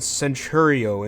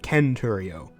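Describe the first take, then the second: First: The c is soft, like an s sound. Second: The c is hard, like a k sound.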